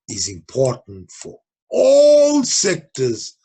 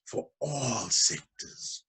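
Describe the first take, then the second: First: "all sectors" slow and louder, each word hit; stress on all sectors. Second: "For all sectors" echoed slowly and softer; soft slow repeat. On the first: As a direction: lean hard on "all" in "for all sectors". Teacher stresses the key phrase. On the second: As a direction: repeat "For all sectors" quietly, letting it sink in. Teacher repeats the phrase softly. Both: Shown as a demonstration.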